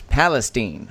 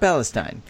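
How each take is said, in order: First: The name is said the local Texan way. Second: The name is said the common non-Texan way. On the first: The speaker calls it right. "another town that only Texans seem to know how to pronounce properly is Palestine" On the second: The speaker calls it wrong. "Not Palestine"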